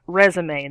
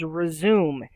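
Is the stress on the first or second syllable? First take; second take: first; second. First: The stress is on the first syllable. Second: The stress is on the second syllable. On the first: It is the word meant, a summary of work. The speaker calls it right. "not resume" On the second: It is a different word, without the accent marks. The speaker calls it wrong. "Otherwise, the word is resume"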